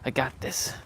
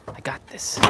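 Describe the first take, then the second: First: Said in the usual way. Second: Unvoiced self-encouragement; whispered. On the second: Real, not acted. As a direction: whisper it to yourself.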